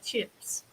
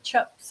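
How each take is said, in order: First: The vowel in chips has an Australian sound. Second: The vowel in chips has a New Zealand sound. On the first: This is how the speaker says it now. "I say chips" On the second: This is how the speaker used to say it. "I don't say chips anymore"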